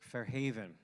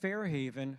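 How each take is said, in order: First: The stress is on the second syllable. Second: The stress is on the first syllable. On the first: The speaker calls it right. "with the accent on the on the second syllable" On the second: The speaker calls it wrong. "That was the New Jersey pronunciation of Fairhaven"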